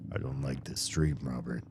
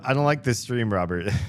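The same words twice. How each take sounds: First: It is said in a put-on character voice. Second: It is said in the speaker's ordinary voice. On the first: The speaker calls it right. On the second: The speaker calls it wrong.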